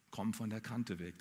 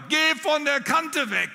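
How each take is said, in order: First: Low, soft murmur; quiet echo of the warning. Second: Much higher, loud, slow shout; shouting mother. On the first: The jumper recalls her mother's warning as a low, soft echo. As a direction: let the warning fade away, low and soft. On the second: Dead mother shouting in her ear at the edge, high and slow. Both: Retold or imitated. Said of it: "Die rief mir ins Ohr".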